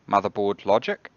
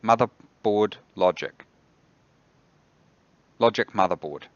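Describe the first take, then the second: First: Said in the usual way. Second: Careful command. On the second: Real, not acted. Retrying a misheard voice command.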